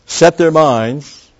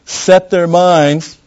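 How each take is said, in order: First: Slow, high, loud "Set their minds"; slow rising stressed phrase. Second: Very slow, much higher, louder "set their minds"; slow loud stressed phrase. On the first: Repeating the phrase. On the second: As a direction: punch "set" long and high. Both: Acted.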